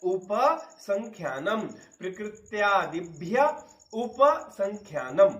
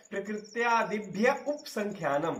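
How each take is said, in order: First: उपसंख्यानम slowly, syllable by syllable, with a clear a after p: u-pa-sankhyanam; correct pronunciation. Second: उपसंख्यानम said as upsankhyanam, dropping the a after p; the common slip: पा without its आ in उपसंख्यानम; wrong pronunciation. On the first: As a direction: prakrityadibhya upasankhyanam carefully, keep the आ in पा of उपसंख्यानम. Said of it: "तो क्या बोलना है". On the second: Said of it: "तो गलत हो गया". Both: Shown as a demonstration.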